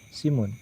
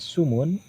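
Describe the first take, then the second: First: A front 'i' vowel follows the s. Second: A rounded 'u' vowel follows the s. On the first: "dan kasrohnya sin menjadi simun" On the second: "boleh dibaca dhamma sinnya menjadi sumun"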